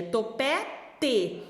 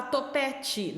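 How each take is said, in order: First: Topete slowly, with a hard "teh" ending; correct spelled pronunciation. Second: Topete with final te said as "chee"; everyday pronunciation. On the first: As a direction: sound out topete, final te with a clear t. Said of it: "é topete". (topete devagar, com "te" bem pronunciado) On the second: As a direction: say topete casually, ending in a "tchi" sound. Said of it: "A gente às vezes fala topete". (topete com final "tchi", como na fala) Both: Shown as a demonstration.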